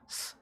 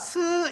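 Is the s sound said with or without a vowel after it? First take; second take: without vowel; with vowel. First: The s sound has no vowel after it. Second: The s sound is followed by a vowel. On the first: The speaker calls it right. "스 이러면 영어잖아요" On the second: The speaker calls it wrong. "스 이러면 한글이고"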